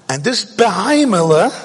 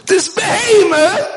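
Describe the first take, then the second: First: Said in the usual way. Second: High, loud and slow "behemoth"; emphatic repeat. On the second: Shown as a demonstration. Preacher repeating "behemoth" to drive the point home, loud and slow. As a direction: stretch out "behemoth" loudly for impact.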